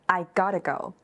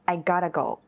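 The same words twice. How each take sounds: First: The middle words are squeezed into one short word. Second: The middle words are squeezed into one short word.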